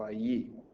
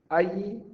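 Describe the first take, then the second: First: A-LLÍ, beat on LLÍ; allí with its stress at the end; correct stress on last syllable. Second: A-llí, with the A high and strong; allí misstressed as Állí; wrong stress on first syllable. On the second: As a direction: lean on the A of allí. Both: Shown as a demonstration. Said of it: "Esta es la sílaba tónica".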